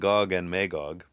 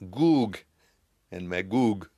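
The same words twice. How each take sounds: First: The vowel in Gog sounds like 'oh'. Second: The vowel in Gog sounds like 'oo'. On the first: The speaker calls it wrong. "not Og" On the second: The speaker calls it right. "It is oo sound"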